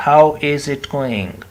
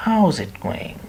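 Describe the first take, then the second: First: "How is it going?" every word separated, slower; unreduced careful greeting; full form. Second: "How's" run together, quick and linked; relaxed contracted greeting. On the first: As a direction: spell out "How is it going?" stiffly. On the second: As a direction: say "How's it going?" as one smooth phrase. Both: Shown as a demonstration.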